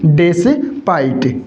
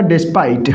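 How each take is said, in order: First: despite split into "des" and "pite"; teacher's drawn-out, two-part despite; slow sounding-out. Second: Said in the usual way. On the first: Shown as a demonstration. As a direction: break despite slowly in two. Teacher sounds word out in parts.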